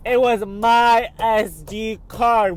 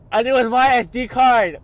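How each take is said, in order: First: Much higher, slow, savoring it; drawn-out joyful disbelief; slow overjoyed. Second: Much higher and louder, thrilled; real joy, voice leaping up; overjoyed. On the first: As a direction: stretch each word out in happy relief. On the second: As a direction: burst out in delighted disbelief. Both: Real, not acted. Finds lost SD card.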